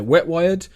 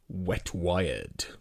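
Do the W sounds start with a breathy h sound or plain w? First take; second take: plain w; breathy h. First: The w sounds begin plainly, without h. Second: The w sounds begin with a breathy h. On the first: "I normally say Wet Wired" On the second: "I've never said it like that before actually"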